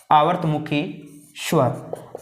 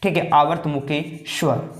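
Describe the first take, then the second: First: आवर्तमुखी spoken word by word with a pause, स्वर trailing off to a breath; slow dictation. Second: Said in the usual way. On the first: Shown as a demonstration. Teacher dictates a term for students to write down slowly. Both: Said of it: "इसको दो भागों में आप लिख सकते हैं".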